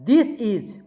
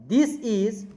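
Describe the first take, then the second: Both takes have the same delivery.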